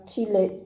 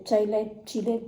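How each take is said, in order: First: Chile said as "tchi-lé", a French reading of the name; unsure pronunciation. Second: Chile tried first as "taï-lé", then as "ji-lé"; Chile, Chile: test two new readings one after the other; trying other pronunciations. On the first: Beauty vlogger guessing how to say a palette name, unsure. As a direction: try Chile as "tchi-lé", hesitantly, with a falling end. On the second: Beauty vlogger testing other ways to say the palette name. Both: Real, not acted. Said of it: "Je sais pas comment ça se prononce".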